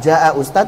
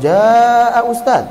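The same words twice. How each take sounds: First: The vowel is held for two counts. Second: The vowel is held for four counts. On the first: The speaker calls it right. "ya sudah dua harakat" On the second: The speaker calls it wrong. "empat harakat bacanya mas, enggak"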